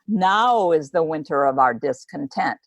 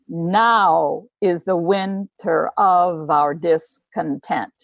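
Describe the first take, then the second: First: The stress falls on now, the first word. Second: The stress falls on is, not now.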